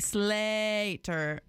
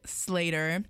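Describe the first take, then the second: First: The name is said in its original pronunciation. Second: The name is said in a casual anglicized way. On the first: The speaker calls it right. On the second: The speaker calls it wrong.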